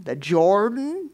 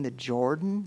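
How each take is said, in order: First: "The Jordan?" drawn out, climbing high in disbelief; incredulous rant. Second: Said in the usual way. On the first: Acted. Naaman ranting about dipping in the river, incredulous. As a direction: stretch "Jordan" slowly into a scornful question. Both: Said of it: "on his rant and he said".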